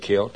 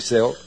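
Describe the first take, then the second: First: The word is pronounced the Irish way. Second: The word is pronounced the hillbilly way. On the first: This is how Irish people say it. "If you're Irish, you say Celt" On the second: This is how rural American folk say it. "If you're a hillbilly like me, you say Celt"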